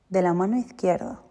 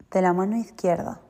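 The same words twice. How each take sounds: The two takes are said the same way.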